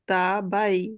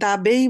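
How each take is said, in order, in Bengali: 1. দ্বিতীয় অক্ষরটি 'by'-এর মতো শোনায়। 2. দ্বিতীয় অক্ষরটি 'bay'-এর মতো শোনায়। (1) "দা বাই। কারণ কি? আই।" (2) "এটা কি দাবেই বলা যাবে?"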